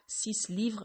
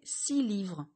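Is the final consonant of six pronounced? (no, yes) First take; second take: yes; no. First: The final consonant of six is pronounced. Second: The final consonant of six is silent. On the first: The speaker calls it wrong. "et pas" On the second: The speaker calls it right. "on ne prononce pas la fin de six"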